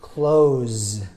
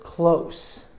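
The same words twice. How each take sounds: First: It ends with a buzzing Z sound. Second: It ends with a hissing S sound. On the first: To shut something. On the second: Near to something.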